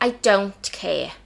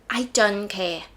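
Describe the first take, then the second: First: It is said in a put-on English accent. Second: It is said in her usual accent.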